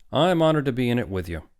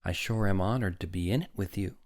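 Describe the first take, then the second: First: Loud, higher booming gallantry; hearty. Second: Modest, restrained delivery; shy. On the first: Doctor returns the woman's compliment, hearty. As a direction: boom it with weight on the first word. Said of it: "said Doctor Hitz heartily". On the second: Woman honored to share the doctor's picture, mildly shy. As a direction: say it modestly, no push. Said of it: "she said shyly". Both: A narrator's reading.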